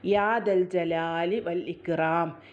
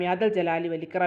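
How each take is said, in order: First: Each sound is articulated clearly and distinctly. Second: The sounds are slurred and run together. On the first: The speaker calls it right. "ഇതേപോലെ" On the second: The speaker calls it wrong. "അങ്ങനെയല്ല കേട്ടോ"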